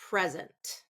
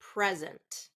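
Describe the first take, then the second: First: The stress is on the first syllable. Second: The stress is on the first syllable.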